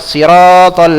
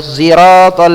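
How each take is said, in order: First: The word begins with an s sound. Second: The word begins with a z-like sound. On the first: This is one accepted reading. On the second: This is another accepted reading.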